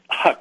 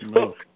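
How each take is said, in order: First: The vowel sounds like the one in duck. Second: The vowel sounds like the one in book. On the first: The speaker calls it wrong. "which I found out is not the right pronunciation" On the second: The speaker calls it right. "It's Hook"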